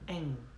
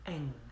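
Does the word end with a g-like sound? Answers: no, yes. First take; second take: yes; yes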